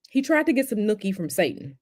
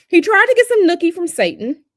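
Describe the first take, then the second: First: Said in the usual way. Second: Much higher, louder cartoon impression of the president; mock South Park president. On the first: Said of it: "repeated in the voice". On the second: Streamer repeats the South Park line as the cartoon president. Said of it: "mocking the current president".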